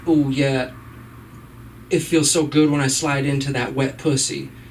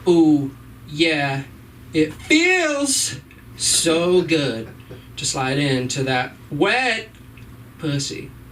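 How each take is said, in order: First: The words are stressed evenly and normally. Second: One word is heavily overemphasized.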